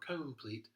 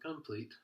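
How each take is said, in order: First: The first vowel is a full, clear o sound. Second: The first vowel is a reduced schwa sound. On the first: The speaker calls it wrong. "it doesn't say complete or complete" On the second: The speaker calls it right. "it says complete. It's also a schwa"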